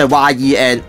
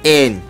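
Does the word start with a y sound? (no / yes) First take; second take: yes; no. First: The word starts with a y sound. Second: The word starts with a vowel, no y sound. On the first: The speaker calls it wrong. "佢读错咗" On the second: The speaker calls it right. "實際上咧呢、這个字系读n 嘅"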